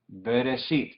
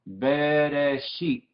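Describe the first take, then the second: First: Said in the usual way. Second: Bereshit stretched syllable by syllable, very slowly; drawn-out pronunciation demo. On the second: Shown as a demonstration. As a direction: sound out Bereshit slowly, holding each vowel. (Bereshit pronunciado muy lento, sílaba por sílaba) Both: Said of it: "queremos practicar la pronunciación".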